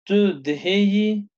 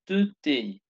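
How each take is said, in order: First: The verb is said in full, syllable by syllable. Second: The verb is contracted into one short syllable.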